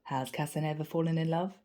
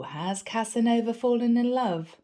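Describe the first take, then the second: First: Softer teasing repeat. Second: Teasing coworker. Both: Retold or imitated. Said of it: "smiled and said".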